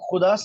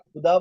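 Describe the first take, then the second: First: The first sound is a rasping throat fricative. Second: The first sound is an aspirated stop. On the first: The speaker calls it right. "सही नहीं बोलेंगे" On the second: The speaker calls it wrong. "हर बार खुदा बोलेंगे"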